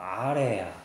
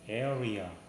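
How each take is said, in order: First: It is said with altered vowels, like 'a-rae-ya'. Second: It is said with standard English vowels. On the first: "걔네들은 뭐 아래야, 뭐 이렇게 말하고" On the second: "area라고 하잖아요"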